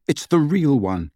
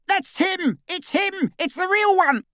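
First: Said in the usual way. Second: High, far-off excited cry; Death Eater's shout. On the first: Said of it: "The hooded Death Eater had shouted". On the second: A narrator's reading. Death Eater recognising the real Harry, high cry. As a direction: cry out in triumph at the discovery. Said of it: "The hooded Death Eater's shout".

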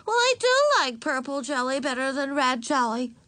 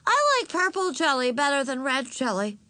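First: Put-on high child voice with DO punched; insistent little girl. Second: Put-on high child voice, butting in; interrupting little girl. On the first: Little sister told off by father, insisting with stress on "do". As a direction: lean hard on "do", high and childish. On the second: Little sister interrupting her sister's story, childishly opinionated. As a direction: announce it high like a small child. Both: A narrator's reading. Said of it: "insisted Ramona".

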